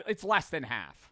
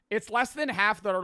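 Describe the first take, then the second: First: Said in the usual way. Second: Less than half punched high and loud; emphatic repeat. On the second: Real, not acted. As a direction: hammer the repeat home.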